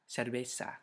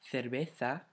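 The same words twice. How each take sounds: First: The c and z are s sounds. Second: The c and z are th sounds. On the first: This is the pronunciation used outside Spain. "Without, and then I'll pronounce it with ceseo" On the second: This is the pronunciation used in Spain. "with thetheo"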